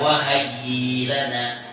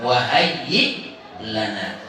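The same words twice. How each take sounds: First: The hamzah becomes a lengthened vowel. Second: The hamzah is pronounced as a glottal stop. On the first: The speaker calls it wrong. "Nggak boleh dibaca wahayyi lana" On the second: The speaker calls it right. "tapi tetap wahayyi lana"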